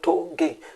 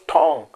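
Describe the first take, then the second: First: The name is said the African way. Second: The name is said the standard way. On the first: It is how the speaker's community says the name. "I'm calling Tonges because we are Africans. We call Tonge" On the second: It is how others say the name should be said. "not Tong"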